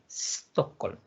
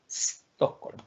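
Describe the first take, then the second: The two takes are said the same way.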